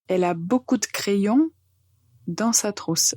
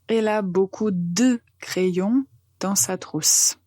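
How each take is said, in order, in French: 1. Elle est prononcée rapidement, avec le « de » réduit. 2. Elle est prononcée à un rythme posé, sans précipitation.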